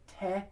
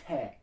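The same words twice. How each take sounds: First: Te with the tongue behind the teeth, American style; wrong te. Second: Te with the tongue on the back of the top teeth, almost a th; touch tongue to top teeth for te, nearly th; right te. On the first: Choir coach showing singers the wrong te. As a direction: say te the usual American way. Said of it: "you don't wanna say te". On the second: Choir coach showing singers the right te. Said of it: "you wanna say te". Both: Shown as a demonstration.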